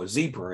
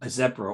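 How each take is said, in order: First: It is said in an American accent. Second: It is said in a British accent.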